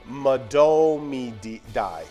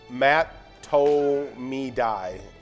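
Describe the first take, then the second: First: The second consonant is a D sound. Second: The second consonant is a T sound. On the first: The speaker calls it right. "The actual pronunciation is" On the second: The speaker calls it wrong. "so the common mispronounce is um"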